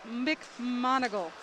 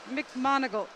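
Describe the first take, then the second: First: McMonigal drawn out slowly, syllable by syllable; careful name correction. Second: Said in the usual way. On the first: Real, not acted. Announcer retrying a swimmer's surname, McMonigal said slowly and carefully. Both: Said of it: "I'm sorry".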